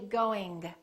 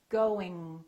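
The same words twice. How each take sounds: First: The final G is clearly released. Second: The final G is held without release. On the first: The speaker calls it wrong. "Don't release it. Don't say" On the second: The speaker calls it right. "let the G just kind of stay there"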